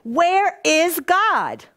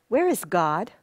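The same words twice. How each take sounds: First: It is asked in a frustrated tone. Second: It is asked in a stern tone.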